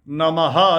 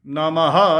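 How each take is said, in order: The two takes are said the same way.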